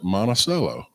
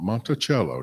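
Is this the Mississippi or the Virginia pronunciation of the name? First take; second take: Mississippi; Virginia. First: It uses the local Mississippi pronunciation. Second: It uses the Virginia pronunciation. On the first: This is how locals in Mississippi say the name. The speaker calls it right. "to this day, they pronounce it Monticello" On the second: This is how the Virginia place name is said. The speaker calls it wrong. "not Monticello. Don't say that down there. That's in Virginia"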